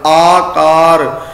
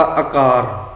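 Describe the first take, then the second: First: ਆਕਾਰ drawn out very slowly with a wide first aa; open long vowels. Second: ਆਕਾਰ with a quick short a at the start; shortened first vowel. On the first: Teacher repeats the correct reading, ਆਕਾਰ with long open vowels. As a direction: mouth fully open, hold both vowels of ਆਕਾਰ. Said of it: "ਪੂਰਾ ਮੂੰਹ ਖੋਲ ਕੇ ਬੋਲਣਾ ਪਏਗਾ". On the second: Teacher showing the careless reading, ਆਕਾਰ begun short. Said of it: "ਅਸੀਂ short ਵਿੱਚ ਕਰਤਾ". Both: Shown as a demonstration.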